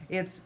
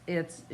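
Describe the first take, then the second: No difference in how they are said.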